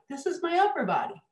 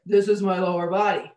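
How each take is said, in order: First: Higher and lighter, no grounding; higher, thinner tone from the head; upper body voice. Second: Louder, fuller and grounded; full, grounded tone with bass notes; grounded lower body voice. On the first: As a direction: let the voice float up high. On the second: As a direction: speak from the feet, louder. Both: Shown as a demonstration. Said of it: "a whole different tone of voice in the upper body".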